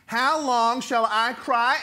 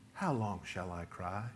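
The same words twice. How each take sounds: First: It is said in a pained, crying-out, anguished way. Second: It is said in a calm, polite, respectful way. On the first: A desperate complaint from someone in pain. The speaker calls it right. "He is hurting and he's in pain and he's crying out" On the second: A courteous, respectful request. The speaker calls it wrong. "we kind of read it this way"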